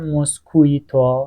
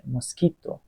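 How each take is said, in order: First: A w sound follows the k. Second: No w sound follows the k. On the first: The speaker calls it wrong. "نمیگم موسکویتو" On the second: The speaker calls it right. "حواست باشه، موسکیتو"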